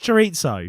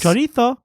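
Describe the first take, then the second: First: It is said with plain English pronunciation. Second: It is said with exaggerated Spanish-style pronunciation. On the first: The speaker calls it right. "Fuck off, it's chorizo" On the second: The speaker calls it wrong. "what I find even more jarring is when people overpronounce foreign words"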